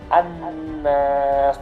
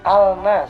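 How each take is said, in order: First: The L merges into a doubled n. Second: The L sound is pronounced before n. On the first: The speaker calls it right. "tapi an-nas" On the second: The speaker calls it wrong. "Jangan dibaca al-nas"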